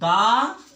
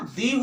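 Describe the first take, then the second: First: The vowel is a short 'uh' sound. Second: The vowel is a long 'ee' sound. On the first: "consonant से हुआ है तो T H E का उच्चारण दा होता है" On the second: "ओवेल से हुआ है तो तो टी एच ई का उच्चारण दी होता है"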